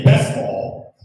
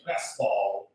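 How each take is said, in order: First: Loud callback cry; called out loud. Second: Said in the usual way. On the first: Shown as a demonstration. Comic calling out his callback to the crowd, loud. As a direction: announce it like a catchphrase. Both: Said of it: "something like, say".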